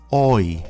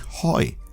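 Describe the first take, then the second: First: The word begins with no h sound. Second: The word begins with an audible h sound. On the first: The speaker calls it right. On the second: The speaker calls it wrong.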